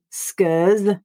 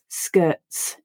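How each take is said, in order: First: The T is dropped and the word ends in a buzzing z sound. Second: The T becomes a throat stop and the word ends in a hissing s sound. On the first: The speaker calls it wrong. "I don't just eliminate that letter T entirely and read skirs and shirs. That results in a z sound on the final letter S" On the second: The speaker calls it right. "I stop my voice and then read the s as a voiceless sound"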